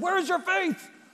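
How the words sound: It is yelled in an angry tone.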